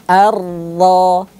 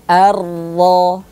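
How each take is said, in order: Both takes have the same delivery.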